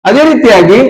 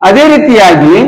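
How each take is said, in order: The two takes are said the same way.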